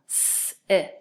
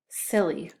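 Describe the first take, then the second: First: S-i-l-e as long s, short i, held l, "ee"; s-i-l-e, one sound at a time. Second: Said in the usual way. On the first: Shown as a demonstration. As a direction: sound out s-i-l-e very slowly. Teacher sounds out word for spelling.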